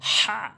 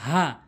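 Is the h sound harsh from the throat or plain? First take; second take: harsh; plain. First: The h is harsh, from mid-throat. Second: The h is a plain, light h. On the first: The speaker calls it right. "বড় হা হলকের মাঝখান থেকে উচ্চারণ করতে হবে।" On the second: The speaker calls it wrong. "যদি বলেন হা, তাহলে উচ্চারণ হবে না"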